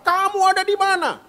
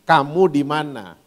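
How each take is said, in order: First: The question is asked in an angry tone. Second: The question is asked in a gentle tone. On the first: The asker is furious with the one being sought. The speaker calls it wrong. "sambil marah" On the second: The asker is kindly looking for the lost one. The speaker calls it right. "dia tanyanya baik-baik intonasinya"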